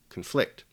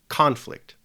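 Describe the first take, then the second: First: The stress is on the second syllable. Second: The stress is on the first syllable. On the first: "the stress falls over the second syllable" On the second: "the stress or the emphasis in pronunciation falls on the first syllable"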